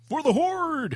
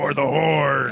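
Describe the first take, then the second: First: It is said in an ordinary voice. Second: It is said in a deep, lowered voice. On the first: The speaker calls it wrong. "No, I gotta do the deep voice" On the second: The speaker calls it right. "Just do like your normal deep voice"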